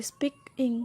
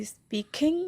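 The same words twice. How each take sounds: First: speaking with speak strong, ইং light; weight the front of speaking, ending falls away; stress on first syllable. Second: speaking with the weight shifted onto কিং; wrong stress on KING. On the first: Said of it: "speak বেশি উচ্চারণ দিই". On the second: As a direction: misplace the stress, punching the end of speaking. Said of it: "আমরা কি উচ্চারণ করি". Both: Shown as a demonstration.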